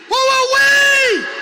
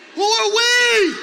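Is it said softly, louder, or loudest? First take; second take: loudest; louder. First: It is said at the loudest level. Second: It is said somewhat louder.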